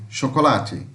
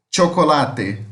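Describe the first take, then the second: First: Said in the usual way. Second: "Chocolate" starting with a crisp tch, as in Spanish; Spanish CH, T plus X. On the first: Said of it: "muda a pronúncia". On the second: Shown as a demonstration. Teacher contrasting languages, "Chocolate" in Spanish with initial tch. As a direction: open "Chocolate" on T plus SH, ending in a clear te. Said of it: "como se fosse um T com X".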